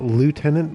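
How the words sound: It is said with an American pronunciation. The speaker calls it wrong. "like the Americans say"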